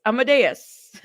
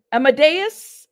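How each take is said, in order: First: Amadeus stated with a falling end; settled, declarative Amadeus; confident name. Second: Amadeus pitched up into a loud question; loud, querying Amadeus; questioning name. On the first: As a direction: say Amadeus as a sure statement, tune dropping. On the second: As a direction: say Amadeus with a rising, checking tune. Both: Real, not acted. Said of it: "See, I know how to say that".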